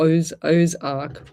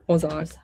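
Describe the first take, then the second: First: "Ozark" drawn out syllable by syllable, "Oz-" first; working out how to say "Ozark"; slow careful Ozark. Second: Said in the usual way. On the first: Shown as a demonstration. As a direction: sound out "Oz-, Ozark" slowly and carefully.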